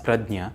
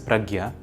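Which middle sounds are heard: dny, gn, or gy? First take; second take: dny; gy. First: The middle cluster sounds like dny. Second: The middle cluster sounds like gy. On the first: This is how a Marathi speaker reads it. "If you were a native Marathi speaker, you might have read it as Pradnya" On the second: This is how a Hindi speaker reads it. "if you were a native speaker of Hindi, you might have read it as Pragya"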